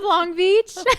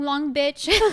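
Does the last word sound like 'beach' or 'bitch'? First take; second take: beach; bitch. First: The last word has a long vowel, like 'beach'. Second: The last word has a short vowel, like 'bitch'. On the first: The speaker calls it right. "Instead of Long Beach" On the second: The speaker calls it wrong. "I said the B word"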